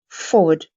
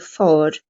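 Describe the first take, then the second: First: A soft W sound is heard in the middle. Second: No W sound is heard in the middle. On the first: "the W here is very very soft" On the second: "If you're very posh, you might drop the that W sound"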